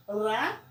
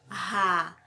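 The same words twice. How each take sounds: First: "Ra" with a rolled tongue-tip R; single-R sound. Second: "ra" said as a breathed ha; double-R sound. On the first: Teacher showing how the sound changed, "Ra" with rolled R. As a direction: roll the R briefly in "Ra". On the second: Teacher showing how the sound changed, "ra" aspirated. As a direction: make the R of "ra" an H from the throat. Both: Shown as a demonstration. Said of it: "mudou o som".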